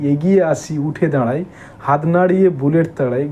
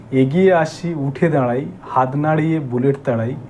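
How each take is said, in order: The two takes are said the same way.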